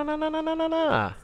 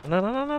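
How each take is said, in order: First: Panicked high no. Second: Panicked no. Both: Real, not acted. NPC running off in game.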